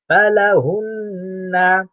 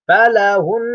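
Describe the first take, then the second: First: The word ends on a final vowel. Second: The word ends on a held nasal. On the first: The reading continues without stopping. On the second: The reader stops at this word.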